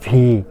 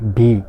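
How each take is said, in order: First: The consonant is made with lip and teeth. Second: The consonant is made with both lips. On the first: The speaker calls it right. "নিচ ঠোঁটের সাথে উপরের দাঁতের কামড় হবে" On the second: The speaker calls it wrong. "আমরা সচরাচর সেটাকে ভি বলে থাকি"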